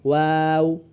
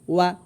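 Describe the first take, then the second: First: "ওয়াও" held long on the vowel; long, even "ওয়াও"; stretched letter name. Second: "ওয়া" short, cut off at once; brief, unstretched "ওয়া"; no stretch. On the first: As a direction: draw out "ওয়াও" steadily. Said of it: "আমি হরফে টান দিচ্ছি". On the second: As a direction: say "ওয়া" without lengthening the vowel. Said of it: "উচ্চারণটা আমি টান দিচ্ছি না". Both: Shown as a demonstration.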